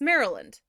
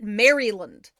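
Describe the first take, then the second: First: The middle syllables are squeezed together. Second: Every syllable is pronounced fully and clearly. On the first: Locals say it this way. The speaker calls it right. "take some of the middle part out and mush it together" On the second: An outsider would say it this way. The speaker calls it wrong. "no one calls it Maryland"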